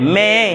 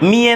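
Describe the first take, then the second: First: The first vowel sounds like 'e'. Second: The first vowel sounds like 'i'. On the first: The speaker calls it right. "মেয়ে। ঠিক আছে" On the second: The speaker calls it wrong. "মিয়ে না, মি কেমনে হবে?"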